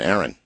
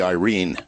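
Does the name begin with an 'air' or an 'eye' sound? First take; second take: air; eye. First: The name begins with an 'air' sound. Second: The name begins with an 'eye' sound. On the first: This is how the spelling reads to the speaker. "in my way of thinking" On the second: This is how a Filipino would read the spelling. "correctly pronounced, as it would be read by a Filipino"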